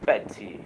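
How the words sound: The t is a clear, crisp t sound. "o dublador do Zeus é britânico"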